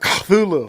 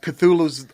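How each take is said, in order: First: The name is said in a strange, unusual way. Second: The name is said in the familiar English way. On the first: This is closer to the creature's true name. "It was supposed to be more like" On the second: This is the version humans use. "only the way that humans say it"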